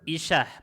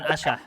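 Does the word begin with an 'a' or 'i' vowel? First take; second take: i; a. First: The word begins with an 'i' vowel. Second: The word begins with an 'a' vowel. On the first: The speaker calls it right. "Yang versi yang benar teman-teman isyah pakai kasrah" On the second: The speaker calls it wrong. "bukan asyah"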